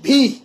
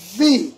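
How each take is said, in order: First: The first sound is made with both lips. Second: The first sound is made with teeth on lip. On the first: The speaker calls it wrong. "অনেকে আমরা বলি ভি" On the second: The speaker calls it right. "এটা সঠিক উচ্চারণ হবে ভি, উপরের দাঁতের সঙ্গে নিচের দাঁতের আগা নিচের ঠোঁটের সঙ্গে"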